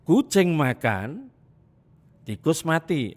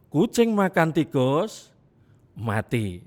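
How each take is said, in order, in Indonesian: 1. Ada jeda setelah kata makan. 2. Ada jeda setelah kata tikus. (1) "Artinya yang mati tikusnya. Dua kejadian" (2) "Artinya kedua-duanya mati"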